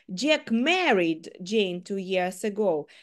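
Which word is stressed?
married. The stress is on the word married. Jack did marry Jane. "Джек одружився на Джейн 2 роки назад"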